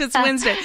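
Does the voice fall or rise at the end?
fall. The voice falls at the end, sounding confident. The speaker is sure it is Wednesday. "If you say it in a way that's confident"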